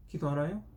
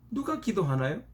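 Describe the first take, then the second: First: Said in the usual way. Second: 누가 lifted higher and hit hard, then a rising question; stress on 누가. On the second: Shown as a demonstration. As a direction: lean on 누가 and let the question rise.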